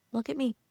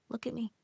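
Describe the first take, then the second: First: Said in the usual way. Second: Much softer, tender look at me; quiet tender plea; soft coaxing. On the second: Pretend. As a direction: hush it gently, like calming a child. Soothing self-talk to herself.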